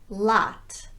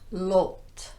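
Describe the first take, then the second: First: The vowel is an unrounded ah. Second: The vowel is a rounded vowel. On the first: The speaker calls it right. "the unrounded ah sound" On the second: The speaker calls it wrong.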